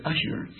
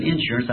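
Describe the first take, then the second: First: Assurance said softly with an a- start, not in-. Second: Insurance said with a plain in- start. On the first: Preacher stresses he said assurance, softly. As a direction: say assurance, opening on a-. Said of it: "I said assurance". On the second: Preacher shows the word he did not say, insurance. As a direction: say insurance, opening on in-. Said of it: "I never said insurance". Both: Shown as a demonstration.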